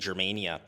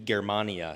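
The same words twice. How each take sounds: First: The word has an English-style pronunciation. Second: The word has a classical Latin pronunciation. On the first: The speaker calls it wrong. "I know we tend to say Germania" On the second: The speaker calls it right. "the actual Roman Latin pronunciation, it should be Germania"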